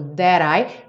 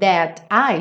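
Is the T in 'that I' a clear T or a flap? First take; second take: flap; clear T. First: The T becomes a quick flap sound. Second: The T is pronounced as a clear stop.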